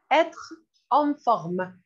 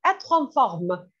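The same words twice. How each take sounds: First: Slow, drawn-out teacher model; slow model phrase. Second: Said in the usual way. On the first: Shown as a demonstration. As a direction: stretch it out so students can copy. (lentement, bien articulé)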